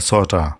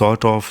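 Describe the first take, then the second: First: The word 'of' shrinks to a weak 'a'. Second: The word 'of' is said in full.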